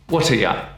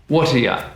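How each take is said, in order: Both takes have the same delivery.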